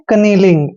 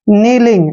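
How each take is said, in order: First: The word starts with a k sound. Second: The word starts with an n sound. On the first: The speaker calls it wrong. "इसको पढ़ते हैं हम कनीलिंग" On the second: The speaker calls it right. "के वहां पर हमेशा silent रहने वाला है"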